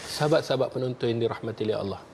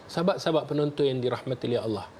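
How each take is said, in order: Both takes have the same delivery.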